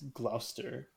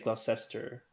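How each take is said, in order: First: The name is shortened, dropping a middle syllable. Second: Every written syllable of the name is pronounced. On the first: The speaker calls it right. "but it's Gloucester" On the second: The speaker calls it wrong. "I want to say Gloucester"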